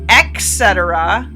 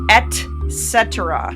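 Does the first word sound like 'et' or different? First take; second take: different; et. First: The first word is not said as 'et'. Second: The first word is said as a clear 'et'. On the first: The speaker calls it wrong. "It's not et cetera" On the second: The speaker calls it right. "The word is et cetera"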